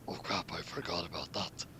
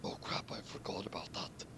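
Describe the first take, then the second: First: Laughing soft whisper, dropping lower; hushed guilty aside. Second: Soft whispered aside; hushed mock panic. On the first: Acted. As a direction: whisper it sheepishly with a chuckle. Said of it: "Saber said that felt bad". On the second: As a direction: hiss it to yourself, caught out. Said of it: "Saber said".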